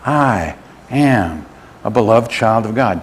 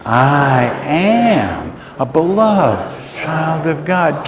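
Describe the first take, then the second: First: Said in the usual way. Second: Very slow, higher, sustained declaration; like you mean it. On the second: Shown as a demonstration. Preacher leads congregation to say it like they mean it, slow and sustained. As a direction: draw out each word with conviction. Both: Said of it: "Now say it like you mean it".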